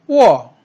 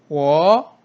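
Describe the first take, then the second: First: The pitch falls sharply from high to low. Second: The pitch rises from mid to high. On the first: "사성" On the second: "이성일 경우에는"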